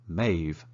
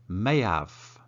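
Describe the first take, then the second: First: 'Have' is reduced and joined onto 'may'. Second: Both words are said fully and separately.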